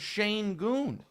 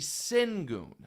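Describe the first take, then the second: First: The first syllable sounds like 'shane'. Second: The first syllable sounds like 'sin'. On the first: This is how the announcer keeps saying it. "There is no A in the name" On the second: This is the name read as it is spelled. "going to do it the way it's spelled"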